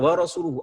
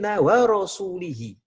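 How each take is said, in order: First: The vowels after 'rasul' are u sounds. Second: The vowels after 'rasul' are i sounds. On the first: God and His messenger both disown the idolaters. The speaker calls it right. "Kalau dibaca lu wa rasuluhu" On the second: God disowns the idolaters and also His messenger. The speaker calls it wrong. "secara makna ini kesalahan yang sangat fatal"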